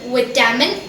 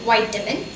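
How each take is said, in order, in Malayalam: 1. ആദ്യത്തെ syllable 'bit' എന്നതിനോട് പ്രാസമൊത്തുന്നു. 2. ആദ്യത്തെ syllable 'bite' എന്നതിനോട് പ്രാസമൊത്തുന്നു. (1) "it's okay" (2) "better നിങ്ങൾ യൂസ് ചെയ്യുന്നത് വൈറ്റമിൻ"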